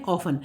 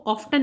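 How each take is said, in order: First: ऑफन with no t, f straight into n; correct silent t. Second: ऑफ्टन with the t sounded after f; wrong spelt-out t. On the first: Teacher giving students the correct ऑफन, no t. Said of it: "हम इसको पढ़ते हैं ऑफन". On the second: Teacher showing students the wrong ऑफ्टन with t. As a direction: say ऑफ्टन voicing the t. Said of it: "हम इसको ऑफ्टन नहीं पढ़ते". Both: Shown as a demonstration.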